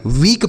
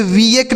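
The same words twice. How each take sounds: First: वीक as one syllable, long ee; correct pronunciation. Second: वीएक split in two, vee-ek; wrong pronunciation. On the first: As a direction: say वीक straight from ee into k. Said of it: "वीक पढ़ेंगे". (वीक, बड़ी ई के साथ एक अक्षर में) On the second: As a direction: say वीएक with an extra vowel before k. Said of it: "इसे वीएक नहीं पढ़ेंगे". (वीएक, दो अक्षरों में तोड़कर) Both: Shown as a demonstration.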